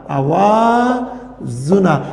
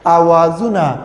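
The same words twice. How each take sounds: First: آوازونه spoken very slowly, each vowel held long; slowly drawn-out آوازونه. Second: Said in the usual way. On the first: Shown as a demonstration. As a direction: stretch آوازونه syllable by syllable for students. (آوازونه را آهسته و کشیده بگو) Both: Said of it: "آوازونه د واول".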